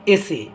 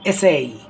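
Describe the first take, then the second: First: The word ends in a plain short 'e' vowel. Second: The word ends in an 'ay' glide vowel. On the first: The speaker calls it wrong. "Maximum বলে কি বলে" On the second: The speaker calls it right. "সঠিক উচ্চারণটা কি হবে ... লাস্টে এই"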